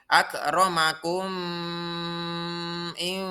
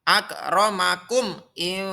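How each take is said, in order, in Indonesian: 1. Huruf m dibaca samar dan menyatu dengan kata berikutnya. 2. Huruf m diucapkan dengan jelas sebelum kata berikutnya. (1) "Tidak boleh ... Salah" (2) "dibaca dengan jelas memnya"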